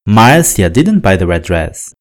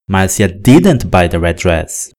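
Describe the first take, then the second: First: The word Marcia carries the strongest stress. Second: The word didn't carries the strongest stress. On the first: It was this person and not someone else. "Na primeira sentença, estou falando da Márcia" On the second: She looked at and tried it but did not buy it. "o que eu estou dizendo é que ela não comprou"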